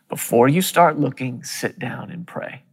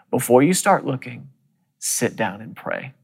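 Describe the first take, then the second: First: Soft inner whisper. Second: Quiet inner voice. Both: Retold or imitated. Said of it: "I heard the Lord speak to me on the inside".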